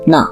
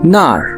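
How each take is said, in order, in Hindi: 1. शब्द बिना आर की आवाज़ के खत्म होता है। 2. शब्द आर की आवाज़ के साथ खत्म होता है। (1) "ना कहते हैं सिंपल सा ना" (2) "ये बेजिंग साइड पे या जो स्टैंडर्ड चाइनीज उसमें बोला जाता है"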